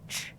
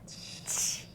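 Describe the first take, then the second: First: The ch is said with rounded lips. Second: The ch is said with spread lips. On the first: "your lips are rounded" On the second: "your lips are spread wide"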